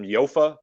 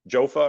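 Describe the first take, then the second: First: The name begins with a Y sound. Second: The name begins with a J sound. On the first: "some people might pronounce them Yofa" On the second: "but they're Jofa"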